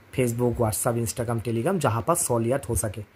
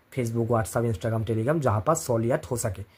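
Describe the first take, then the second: The two takes are said the same way.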